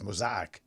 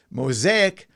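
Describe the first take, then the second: First: Mosaic said low and soft as mo-ZY-ek; foreign pronunciation. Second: Said in the usual way. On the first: Shown as a demonstration. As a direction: say Mosaic with "eye" as its middle vowel. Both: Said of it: "how they say it in some countries".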